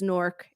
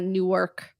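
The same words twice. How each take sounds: First: The word is squeezed into one syllable. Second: The word is said with two syllables. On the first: The speaker sounds like a local. The speaker calls it right. "It is pronounced by the locals as Nork" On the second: The speaker sounds like an outsider. The speaker calls it wrong. "It is not Newark"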